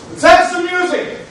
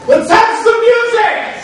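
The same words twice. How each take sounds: First: Excited call. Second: Loud call. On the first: Celebrating, calling for the band. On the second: Drunken repeated call for music. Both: Acted.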